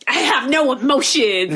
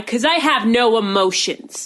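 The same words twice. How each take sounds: First: Slow, higher mocking put-on voice; mocking imitation. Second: Slow, measured retelling of a deadpan line; matter-of-fact. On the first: Mom making fun of son-in-law, mocking imitation. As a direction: parrot him slowly to poke fun. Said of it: "making fun of him". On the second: Retold or imitated. Brother-in-law answers "are you angry", matter-of-fact. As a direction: imitate him stating it calmly and slowly. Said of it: "And Steven's like".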